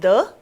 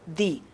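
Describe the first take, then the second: First: It is said in its before-consonant form. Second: It is said in its before-vowel form. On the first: "we pronounce it as the before a consonant" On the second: "before a vowel sound, we say the"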